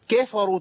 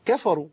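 First: "keefaru", the opening syllable distorted; faulty tilted kaf. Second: Light, even كفروا; corrected kaf. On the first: Retold or imitated. Teacher echoing the repeated mistake, faulty higher-pitched word. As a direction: say كفروا higher, first vowel bent to "kee". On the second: Shown as a demonstration. Teacher correcting the student, clean short vowels. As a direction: say كفروا short, with an open a, "kafaru". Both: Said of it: "ما تنفعش".

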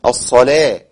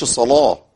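First: "الصلاة" with a thin, light ل, said with a slight smile; light lam. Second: "الصلاة" with a thick, heavy ل in the Warsh style; heavy Warsh lam. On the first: Teacher showing the standard light lam. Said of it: "وأعمل ابتسامة بسيطة". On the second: Teacher contrasting the Warsh heavy lam. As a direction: give "الصلاة" a dark, heavy ل as Warsh reads it. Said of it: "الصلاة ده عندي ورش". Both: Shown as a demonstration.

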